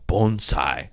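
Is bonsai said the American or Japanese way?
Japanese. It is pronounced the Japanese way. "he kept saying, bonsai"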